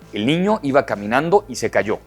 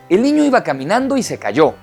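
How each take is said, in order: First: The sentence is spoken in a low-pitched voice. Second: The sentence is spoken in a high-pitched voice. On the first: "Voz grave" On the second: "Voz aguda"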